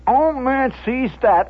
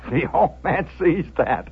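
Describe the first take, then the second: First: Much higher, urgent storytelling; excited repeat. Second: Said in the usual way. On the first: A narrator's reading. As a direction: launch into it with mounting alarm. Repeat as tension erupts.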